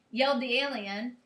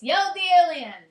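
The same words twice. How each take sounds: First: Said in the usual way. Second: Loud, high mock announcement; raised pitch, punched out loudly; standalone exclamation. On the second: Shown as a demonstration. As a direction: blurt it out as if a whole sentence. Mocking the mistaken uppercase version.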